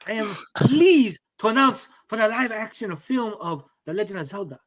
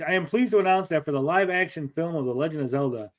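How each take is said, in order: First: It is read in a put-on Asian accent. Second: It is read in his normal voice.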